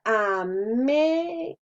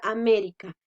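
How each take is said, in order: First: América stretched out, leaning hard on "mé"; slow teacher's demo of América, long stressed "mé"; drawn-out syllables. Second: Said in the usual way. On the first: Shown as a demonstration. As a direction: sound out América syllable by syllable, "mé" strongest. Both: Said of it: "la mayor fuerza la hacemos en me".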